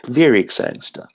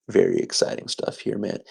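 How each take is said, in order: First: Said in the usual way. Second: Breathy whispered aside, half to himself. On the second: Shown as a demonstration. Vlogger whispering his excitement to viewers, softly. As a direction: hush it like a secret thrill. Hushed take then repeated aloud.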